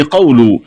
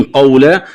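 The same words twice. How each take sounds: First: قول ending "qawlu"; damma on lam. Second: Said in the usual way. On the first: Shown as a demonstration. Teacher showing the variant, قول with final u. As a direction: end قول on a u vowel. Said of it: "قرأها برفع اللام". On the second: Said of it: "قرأها برفع".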